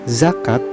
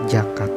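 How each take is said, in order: First: The word begins with a z sound. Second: The word begins with a j sound. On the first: This is the form in the original language. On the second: This is the form adapted to Sundanese.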